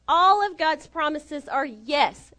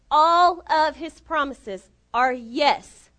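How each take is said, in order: First: Slow, with weight on ALL; emphatic declaration. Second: Very slow and loud, word by word; ALL loud and drawn out, "yes" set apart; insistent proclamation. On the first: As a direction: proclaim "all" firmly, then settle on "yes". Preacher's first emphatic statement. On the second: Insistent repeat after hear me. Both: Real, not acted.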